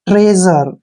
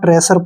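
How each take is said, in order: First: The middle consonant is a voiced 'zh' sound. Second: The middle consonant is a plain 's' sound. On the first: The speaker calls it right. "इसको पढ़ेंगे हम ट्रेजर" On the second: The speaker calls it wrong. "इसको आमतौर पर आप ट्रेसर पढ़ते हैं"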